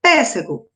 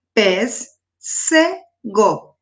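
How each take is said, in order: First: Said in the usual way. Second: "pes, se, go" in three detached syllables, "se" pitched up. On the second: Shown as a demonstration. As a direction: separate "pes, se, go" with clear pauses. ("pes, se, go" sílaba por sílaba, com pausas) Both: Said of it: "Também três sílaba".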